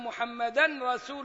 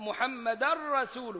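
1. تُسمع النون الأنفية قبل الراء. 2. تُدغم النون الأنفية في الراء إدغامًا كاملًا. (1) "ما ينفعش أقول أن محمدا رسول الله" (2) "فيها إدغام كامل زي اللام"

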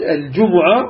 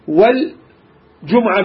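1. بعد الميم حركة. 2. لا توجد حركة بعد الميم. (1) "وهي الأشهر وهي لغة الحجاز" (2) "بالسكون"

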